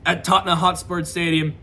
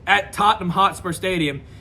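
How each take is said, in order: First: The name is pronounced sloppily and unclearly. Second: The name is pronounced carefully and clearly. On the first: The speaker calls it wrong. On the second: The speaker calls it right.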